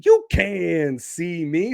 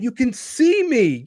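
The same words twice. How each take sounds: First: Slow, stretched "You CAN see me"; drawn-out repeat. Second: High, punched SEE in "see me"; emphatic declaration. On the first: Podcaster playing up being on video, drawn out. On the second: Podcaster telling viewers he's on video, emphatic. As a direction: raise the pitch and hit SEE. Makes a point, then repeats it. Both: Real, not acted.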